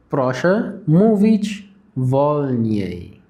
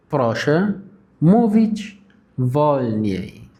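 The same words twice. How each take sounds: First: Very slow, each syllable drawn out; slow demo. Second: "Proszę" alone, a pause, then "mówić wolniej" very slow; broken into chunks. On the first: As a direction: say it slowly like a teacher modelling. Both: Shown as a demonstration. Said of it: "أستأذنك تتكلم بالراحة".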